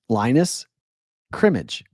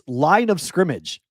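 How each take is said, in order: First: It is read as Linus plus Crimmage. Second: It is read as line of scrimmage. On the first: The name is taken as a person's name. The speaker calls it wrong. "Dave read that screen name as Lineage, Linus Crimmage" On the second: The name is taken as a football term. The speaker calls it right. "It's line of scrimmage, like football"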